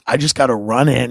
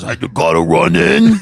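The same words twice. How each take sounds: First: Said in the usual way. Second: Brian. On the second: Retold or imitated. Friend pulls up to his house, strained imitation. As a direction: redo it in the buddy's odd voice. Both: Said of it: "He goes".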